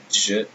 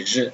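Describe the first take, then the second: First: "je" with a D before the zh; "je" starting like English "jump"; English J sound. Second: "je" starting like the S in "measure"; French J sound. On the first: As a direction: say "je" wrongly as djuh. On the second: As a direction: say "je" as zhuh. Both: Shown as a demonstration. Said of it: "Say je, not je".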